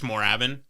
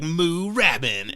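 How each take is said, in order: First: The first vowel is short and plain. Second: The first vowel is long and drawn out. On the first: The speaker calls it right. "So it's just Moorabbin" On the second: The speaker calls it wrong. "you're missing the opportunity with the two O's"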